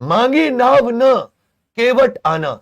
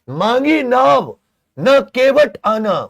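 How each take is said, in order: First: The pause comes right after the word na. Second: The pause comes right after the word naav. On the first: The boat was not asked for, and the boatman should come. "यहां पे के नाव नहीं मांगी, केवट तुम आना" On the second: The boat was asked for, and the boatman should not come. "यहां पे नाव मांगी, केवट तुम मत आना"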